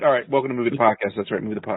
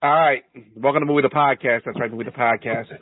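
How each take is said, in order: First: It is said fast. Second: It is said slowly.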